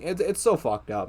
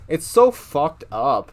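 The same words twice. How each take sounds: First: Said in the usual way. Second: So fucked up, drawn out slowly and louder; slow emphatic repeat. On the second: Real, not acted. To viewers, repeating his disgust at the show slowly and louder. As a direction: lean on "so" and stretch "It's so fucked up".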